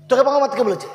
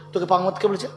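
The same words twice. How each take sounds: First: তোকে thrown out high and loud; louder scolding repeat. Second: Said in the usual way. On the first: Acted. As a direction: snap it back harder.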